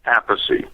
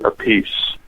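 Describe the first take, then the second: First: The name sounds like 'app-iss'. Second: The name sounds like 'a piece'. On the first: This is the family's original way of saying it. The speaker calls it right. "I pronounce it [name]" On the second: This is a changed form adopted later. The speaker calls it wrong. "Carmine pronounces it a piece"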